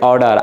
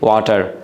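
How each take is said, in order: First: It has an American accent with a flapped 'd'-like 't'. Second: It has a Bangladeshi accent with a clear 't'. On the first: "আমেরিকানরা বলে যে অর্ডার" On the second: "আমরা বাঙালিরা এটাকে বলি ওয়াটার"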